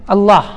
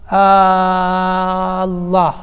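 First: Said in the usual way. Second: "الله" with its opening a held very long, "aaaa-llah"; lengthened first hamza. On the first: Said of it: "هذا خطأ". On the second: Shown as a demonstration. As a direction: stretch the first vowel of "الله" on one level note. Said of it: "بعضهم يمد".

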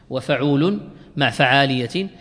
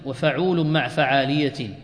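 The two takes are said the same way.

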